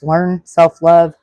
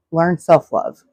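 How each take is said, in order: First: "learn self-love" slowed right down and louder; slow emphatic learn self-love. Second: Said in the usual way. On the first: Shown as a demonstration. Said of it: "and I just mentioned this".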